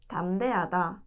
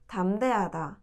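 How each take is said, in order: No difference in how they are said.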